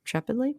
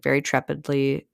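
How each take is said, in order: First: "trepidly" high and soft, rising into a question. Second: Said in the usual way. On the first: Real, not acted. Storyteller doubting her own word, "trepidly" lifted questioningly. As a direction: query "trepidly" as if unsure it is a word.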